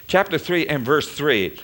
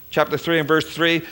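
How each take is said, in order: Both takes have the same delivery.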